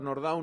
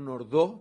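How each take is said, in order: First: The name is said without a French pronunciation. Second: The name is said with a French pronunciation. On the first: The speaker calls it right. "digo Nordau, viene más bien del polaco en la pronunciación" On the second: The speaker calls it wrong. "no Nordau, porque no era un nombre francés"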